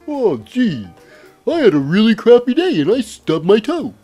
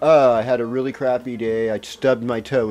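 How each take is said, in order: First: It is said in a Bullwinkle voice. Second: It is said in his normal voice.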